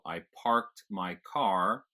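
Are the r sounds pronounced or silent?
pronounced. The r sounds in parked and car are pronounced. "every time there's an R in the spelling of a word, you pronounce it"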